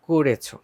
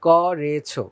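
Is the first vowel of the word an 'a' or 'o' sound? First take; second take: o sound; a sound. First: The first syllable has an 'o' vowel. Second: The first syllable has an open 'a' vowel. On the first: The speaker calls it right. "বলতে হবে করেছো। কয়ের সাথে ওকার উচ্চারণ করতে হবে।" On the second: The speaker calls it wrong. "ভুল"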